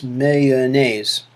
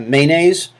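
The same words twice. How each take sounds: First: Mayonnaise said in three syllables, MAY-o-naise; mayonnaise as three syllables, first one stressed. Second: Mayonnaise said in two syllables, MAY-naise; mayonnaise as two syllables, first one stressed. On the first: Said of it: "or with three syllables". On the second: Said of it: "two syllables". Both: Shown as a demonstration.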